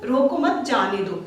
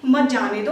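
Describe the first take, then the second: First: "रोको मत" rises as one unit, "जाने दो" falls; group रोको with मत, then drop on जाने दो; comma after मत. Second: "मत" hit hard, running into "जाने दो"; मत joined to जाने दो. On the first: Teacher explains the comma's meaning, रोको मत grouped together. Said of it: "का मतलब है कि उसको". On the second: Teacher shows the opposite meaning, loud stress on मत. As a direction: punch मत as the start of "मत जाने दो". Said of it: "उसके बाद अगर आपने अल्प विराम लगा दिया". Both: Shown as a demonstration.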